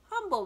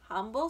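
First: HUMBLE pitched high and loud, falling; "humble" said high with a falling tune; announced word. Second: "Humble" as a question, rising at the end; "Humble" at usual pitch, turned upward; questioning echo. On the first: Rat reads out the word. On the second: Charlotte questions the word back. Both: Acted.

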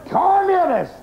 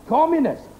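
First: Much higher, furious outburst; exploding in anger. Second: Said in the usual way. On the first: Acted. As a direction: explode at the word. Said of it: "the man exploded". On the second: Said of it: "says McIver".

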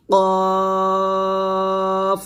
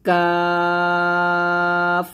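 First: কফ said thick from the tongue root; heavy qaf. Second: কাফ drawn out thin and light; light kaf. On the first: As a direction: give কফ a full, heavy sound. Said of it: "মোটা করে". (কফ মোটা করে) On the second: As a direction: keep কাফ thin, stretched slow. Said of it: "কাফটা পাতলা হবে". (কাফ পাতলা করে) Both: Shown as a demonstration.

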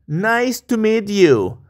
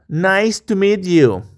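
The two takes are said the same way.

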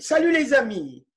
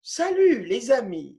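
First: Quick model phrase. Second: Said in the usual way. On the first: Shown as a demonstration.

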